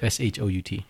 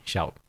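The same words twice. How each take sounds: First: S H O U T spelled letter by letter. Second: Said in the usual way. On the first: Shown as a demonstration. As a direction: say S H O U T as separate letters, S, H, O, U, T. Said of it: "so I felt I had to say it like that". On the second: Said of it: "why don't you just say Shout".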